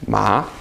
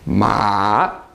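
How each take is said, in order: First: The pitch rises from middle to high. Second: The pitch dips down then rises again. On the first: The word means hemp. "it's a rising tone. Your voice goes up" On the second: The word means horse. "This is a tone that goes down and then back up again"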